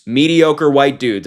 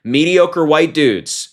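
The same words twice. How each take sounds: First: Slow, scornful, with the weight on "Mediocre"; disgusted emphasis landing on "Mediocre"; stress on mediocre. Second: Slow, scornful, with the weight on "white"; disgusted emphasis landing on "white"; stress on white. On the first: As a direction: lean hard on "Mediocre" and let "white dudes" fall away. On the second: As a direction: drag "Mediocre white dudes" out and hit "white" hardest. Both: Real, not acted. Slow repeated disgusted phrase.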